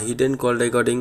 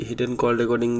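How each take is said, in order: Both takes have the same delivery.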